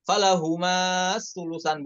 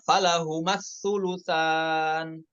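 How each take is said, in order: First: The vowel before sulusan is drawn out long. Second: The vowel before sulusan is short. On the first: The speaker calls it wrong. "bukan dibaca panjang lagi, bukan falahu sulusan" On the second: The speaker calls it right.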